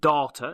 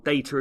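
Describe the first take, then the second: First: It is said with a New Zealand pronunciation. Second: It is said with an English pronunciation.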